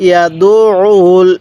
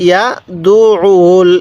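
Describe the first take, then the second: No difference in how they are said.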